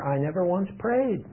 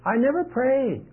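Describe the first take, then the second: First: Said in the usual way. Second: Never pitched much higher and punched; stress on never. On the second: Shown as a demonstration. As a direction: lift the word never high above the rest.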